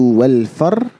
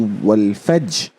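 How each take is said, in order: First: Only the r sound is heard at the end. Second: Only the j sound is heard at the end. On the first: "just skip the jim" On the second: "do not pronounce the ra"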